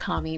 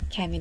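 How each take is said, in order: First: The first vowel is a soft A sound. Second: The first vowel is a hard A sound. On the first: The speaker calls it wrong. "wants to like do soft A's for everything" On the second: The speaker calls it right. "that's Cammy"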